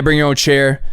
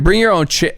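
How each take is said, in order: First: Lightly imitated Midwestern drawl, even pitch; matter-of-fact promoter with a hint of Midwestern drawl. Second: Higher-pitched, falling echo; incredulous echo. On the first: Promoter explaining BYOC, in a light Midwestern drawl. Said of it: "Midwestern drawl". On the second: Retold or imitated. Hosts reacting to the promoter's pitch, mildly incredulous. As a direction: repeat it back in mild mock disbelief.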